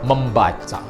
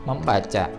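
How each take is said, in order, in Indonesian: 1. Kata ini terdengar tegas, penuh, dan jelas. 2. Kata ini terdengar tipis, lemah, dan kurang jelas. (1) "Tapi kita harus tegas" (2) "atau membaca"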